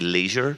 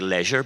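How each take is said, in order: First: The word is said in an American accent. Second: The word is said in a Belfast accent.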